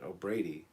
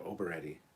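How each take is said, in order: First: The name ends with a 'Brady' sound. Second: The name ends with an 'etti' sound. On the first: "pronounced like the Brady Bunch" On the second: "I would say the Starship Oberetti. That's how I would say it"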